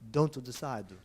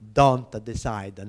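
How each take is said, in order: First: An 'o' vowel is added between consonants. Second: An 'a' vowel is added between consonants. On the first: "the Japanese ... they put an O" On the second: "The Italians ... put a vowel in between each of these consonants"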